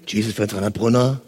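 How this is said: The greeting sounds low, falling and gloomy. The caller does not feel welcome. The speaker calls it wrong. "Nicht runtergehen"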